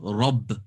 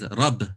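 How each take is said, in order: First: The r is said heavy, with full mouth. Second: The r is said light, with empty mouth. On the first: The speaker calls it right. "you're meant to say it as full mouth" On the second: The speaker calls it wrong. "which is empty mouth, it's a minor mistake"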